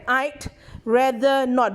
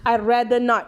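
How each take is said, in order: First: The d sound after I is clearly heard. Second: Said fast, with the d sound slipped away. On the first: "there's a t, t sound behind" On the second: "Usually it's very fast slip one"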